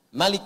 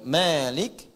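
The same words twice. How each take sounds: First: The first vowel is said short. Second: The first vowel is drawn out long.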